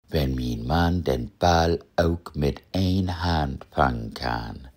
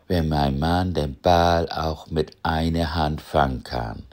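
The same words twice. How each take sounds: First: Full Low German dialect pronunciation. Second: Missingsch, a Low German-tinged mixed dialect. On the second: "Oder auf Missingsch"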